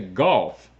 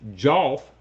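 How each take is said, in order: First: The word begins with a hard G sound. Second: The word begins with a J sound. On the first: The speaker calls it right. "They say golf" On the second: The speaker calls it wrong. "people don't say jolf"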